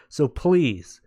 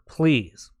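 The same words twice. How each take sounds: First: Said in the usual way. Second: Whispered "please"; pleading whisper to the viewers. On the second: Shown as a demonstration. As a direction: drop the voice to a breathy whisper on "please".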